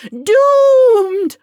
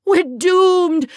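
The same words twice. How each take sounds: First: Much higher and much louder hammed-up wail; even bigger wail. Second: High, loud, hammed-up wail of doom; dramatic wail. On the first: On the floor, topping his own wail to Taya. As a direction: push the wail to its peak. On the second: Flung on the floor, wailing to Taya in mock despair. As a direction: throw yourself down and wail it. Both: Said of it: "flung myself onto the floor and wailed".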